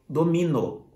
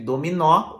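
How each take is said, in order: First: The final O is said closed. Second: The final O is said open. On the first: It is the verb meaning I dominate. "o O fechado porque não tem acento" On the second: It is the name of a game. "o O aberto porque tem um acento"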